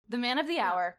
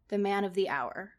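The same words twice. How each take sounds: First: It is said with lots of energy and gusto. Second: It is said in a plain, ordinary voice. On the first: The speaker calls it right. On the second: The speaker calls it wrong.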